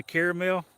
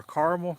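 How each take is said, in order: First: Caramel as CARE-uh-mel; caramel with an "air" vowel and a full middle syllable; three-syllable caramel. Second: Caramel as CAR-mul; caramel with an "ar" vowel and no middle syllable; two-syllable caramel. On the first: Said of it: "I say caramel". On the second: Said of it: "Some people say caramel". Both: Shown as a demonstration.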